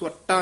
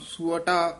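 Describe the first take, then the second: First: The word is said tensely and forcefully. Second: The word is said softly and lightly. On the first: The speaker calls it wrong. "ਸੁਅਟਾ ਨਹੀਂ ਕਹਿਣਾ" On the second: The speaker calls it right. "ਪੋਲਾ ਹੀ ਬੋਲਣਾ"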